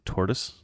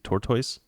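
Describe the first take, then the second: First: It is said the non-British way. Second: It is said the British way. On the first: "They don't say tortoise" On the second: "They say tortoise"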